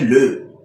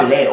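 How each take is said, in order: First: "le" said with a rounded eu vowel; mock corrected pronunciation. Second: "les" said with an open è vowel; mock wrong pronunciation. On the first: Mimicked corrector gives the fix, "le" with rounded eu. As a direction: say "le" as a rounded "leu", the approved form. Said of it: "on dit le". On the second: Mimicked corrector quotes the error, "les" with open è. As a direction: say "les" as an open "lè", the faulted form. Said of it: "il vient dire, on ne dit pas".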